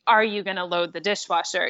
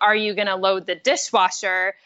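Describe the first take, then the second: First: It sounds plain and neutral. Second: It sounds mean-spirited and harsh.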